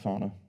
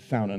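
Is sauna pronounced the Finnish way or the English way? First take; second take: English; Finnish. First: The word has an English-style pronunciation. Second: The word has a Finnish-style pronunciation. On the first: The speaker calls it wrong. "not sauna" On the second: The speaker calls it right. "It's sauna, not sauna. We're finished. We made the word"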